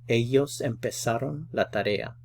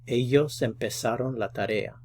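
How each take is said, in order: The two takes are said the same way.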